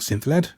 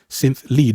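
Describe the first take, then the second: First: The second word rhymes with bed. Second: The second word rhymes with bead. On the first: The speaker calls it wrong. "not synth led" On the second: The speaker calls it right.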